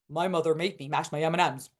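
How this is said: The voice is pitched very low.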